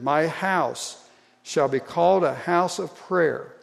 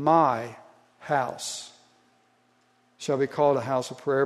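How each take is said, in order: First: It is read evenly with no special stress. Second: The word "My" is stressed.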